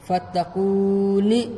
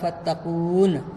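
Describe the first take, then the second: First: The word ends with a final vowel. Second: The word ends on a consonant. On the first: The word is read in its full form. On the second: The reading stops at the end of a verse.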